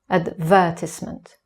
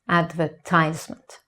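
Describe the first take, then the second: First: The stress is on the second syllable. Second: The stress is on the third syllable. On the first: This is the British pronunciation. "in British English, the stress is on the second syllable" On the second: This is the American pronunciation. "in American English, the stress is on the third syllable"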